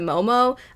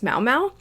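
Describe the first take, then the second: First: Each syllable has an 'oh' vowel sound. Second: Each syllable has an 'ow' vowel sound. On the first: This is how it sounds in the show. "it does kind of sound a little bit closer to Momo" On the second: This is the looked-up pronunciation. "it would seem it's pronounced Mao Mao"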